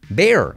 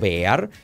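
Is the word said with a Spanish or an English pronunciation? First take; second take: English; Spanish. First: The word is said with an English-style pronunciation. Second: The word is said with a Spanish-style pronunciation. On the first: The speaker calls it right. "Bear, ahí lo tienes" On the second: The speaker calls it wrong. "que tradicionalmente vamos a decir bear o bear"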